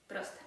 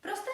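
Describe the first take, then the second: First: Proste as a settled statement; answering tune. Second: Proste with a high, rising question tune. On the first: Answers her own question. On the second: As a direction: lift Proste up as a check question. Asks, then answers herself. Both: Shown as a demonstration.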